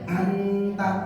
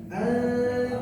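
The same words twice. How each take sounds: First: The n is pronounced fully and clearly. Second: The n is hidden into a nasal sound. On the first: The speaker calls it wrong. "Jangan sampai anta" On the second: The speaker calls it right. "Tapi tetap ada ikhfanya, ada menyamarkan dari nunnya"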